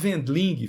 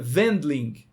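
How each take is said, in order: First: The name is pronounced the Brazilian Portuguese way. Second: The name is pronounced the German way. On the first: It is the easier local pronunciation. "A gente fala Wendling, fica mais fácil" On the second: It is the correct original pronunciation. "A pronúncia correta seria Wendling"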